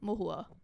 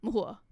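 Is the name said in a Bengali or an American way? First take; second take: Bengali; Bengali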